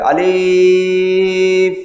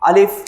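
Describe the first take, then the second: First: The word is drawn out long. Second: The word is said short and quick. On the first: The speaker calls it wrong. "টান হয়েছে" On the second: The speaker calls it right. "আসল আলিফ হচ্ছে এটা"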